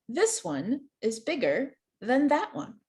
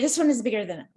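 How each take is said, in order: First: It is said slowly with pauses between parts. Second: It is said quickly with no pauses. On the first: The speaker calls it right. "if you put some pauses in here where the slashes are" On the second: The speaker calls it wrong. "Even I couldn't say that clearly, that fast"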